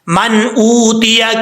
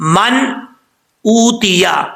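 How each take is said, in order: First: The words run together without a pause. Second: There is a short pause between the words. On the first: "फिर इकट्ठा पढ़ लें" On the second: "थोड़ा सा स्पेस दे के पढ़ लें"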